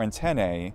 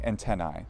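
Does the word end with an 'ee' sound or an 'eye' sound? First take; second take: ee; eye. First: The word ends with an 'ee' vowel sound. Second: The word ends with an 'eye' vowel sound. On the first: "That's usually an e or an e sound. So I'm saying antennae" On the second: "instead of saying antennae"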